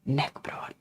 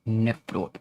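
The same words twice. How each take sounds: First: The word is said in a whisper. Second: The word is said in a normal voice.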